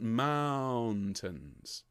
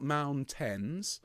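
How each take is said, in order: First: "mountains" with a long "ow" and a light, falling "tns"; "mountains" drawn out slowly, MOUN held and ending reduced; softened last syllable. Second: "mountains" with a full "tens" ending, rising; "mountains" said as "moun-TENS"; over-pronounced last syllable. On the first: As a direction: stretch the first syllable of "mountains", tuck the second away. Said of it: "the second syllable is quieter and slightly softer". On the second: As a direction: give the second syllable of "mountains" a clear "eh" and equal weight. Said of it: "it's not mountains".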